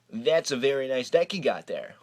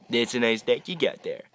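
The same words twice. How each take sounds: First: Creepy. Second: Said in the usual way. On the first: Pretend. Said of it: "Was that creepy enough?". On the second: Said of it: "I'll even show you his comment".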